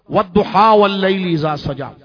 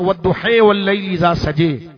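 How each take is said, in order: First: It is recited in the commonly heard style. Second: It is recited in a different reading style. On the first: This is the familiar local reading. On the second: This is another imam's canonical reading.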